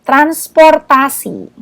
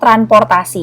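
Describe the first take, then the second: First: An s sound comes before the p. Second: No s sound comes before the p. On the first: The speaker calls it right. "harusnya ada" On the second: The speaker calls it wrong. "Nggak ada S-nya"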